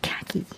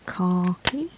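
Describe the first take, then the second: First: It is said with an American pronunciation. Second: It is said like car key, British style. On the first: "as you people in America call it" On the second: "We call it khaki, like a car key"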